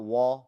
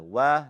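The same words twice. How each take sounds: First: "wa" with a thick, dark back vowel; over-heavy wa. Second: "Wa" with a thin, open front a; light wa. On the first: Teacher shows the mistake, thick dark wa. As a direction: make wa too heavy and rounded. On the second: Teacher corrects students, light thin wa. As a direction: keep Wa light, not rounded. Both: Shown as a demonstration. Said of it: "Wa, not wa".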